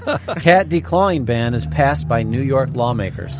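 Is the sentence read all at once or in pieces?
all at once. The sentence is read in one continuous stretch.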